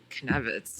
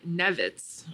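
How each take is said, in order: First: The name starts with a k sound before n. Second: The name starts with an n sound, no k. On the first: "I thought it was Knevitz. It's very wrong" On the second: "I did not know that that's how you pronounced it"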